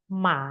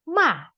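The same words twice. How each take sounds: First: The pitch dips down and rises again. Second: The pitch falls sharply from high. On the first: "Dari atas ke bawah, ke atas lagi" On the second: "seperti orang marah"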